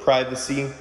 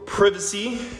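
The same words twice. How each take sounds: First: Privacy is said in the speaker's usual pronunciation. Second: Privacy is said in a playful alternative pronunciation.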